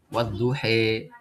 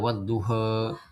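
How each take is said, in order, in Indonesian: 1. Vokal akhir dibelokkan kuat ke arah e. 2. Vokal akhir hanya sedikit dibelokkan ke arah e. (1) "imalah kubra itu dia menyondongkan ke huruf ya-nya" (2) "imalah sughra yaitu lebih ke harokat kasrah"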